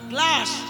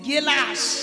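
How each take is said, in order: First: It begins with the cluster 'gl'. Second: A vowel is inserted, giving 'gelas'. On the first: The speaker calls it right. "একটা English শব্দ" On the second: The speaker calls it wrong. "যারা উচ্চারণ করতে পারে না তারা কি বলে"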